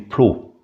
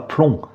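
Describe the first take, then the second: First: The vowel is oral, with no n-like sound. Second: The vowel is nasal, with an n-like sound. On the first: The speaker calls it right. "on dit plo" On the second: The speaker calls it wrong. "On ne dit pas plomb"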